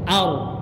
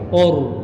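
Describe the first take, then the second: First: The vowel is a clear open a sound. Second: The vowel shifts toward a rounded o sound. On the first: The speaker calls it right. "sempurnakan huruf a-nya dulu baru masuk ke ro" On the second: The speaker calls it wrong. "jangan sampai a-nya bergeser menjadi suara o"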